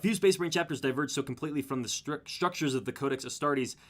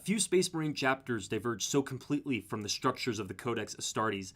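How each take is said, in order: First: It is read quickly in a plain voice. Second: It is read in a put-on dramatic voice. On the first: "I might read a little faster here for this part" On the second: "I'll just read the whole thing in the cool voice then"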